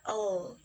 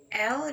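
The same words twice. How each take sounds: First: L said as a drawn "ul"; teacher modelling L with a schwa; L sound demo. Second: Said in the usual way. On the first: Shown as a demonstration. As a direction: sound out L, not its letter name. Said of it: "dibacanya L". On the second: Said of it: "di situ dibacanya L".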